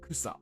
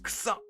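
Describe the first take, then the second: First: It is said evenly, as a plain neutral noun. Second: It is said bluntly, like an informal exclamation. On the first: Grass. The speaker calls it right. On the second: Something stinks. The speaker calls it wrong.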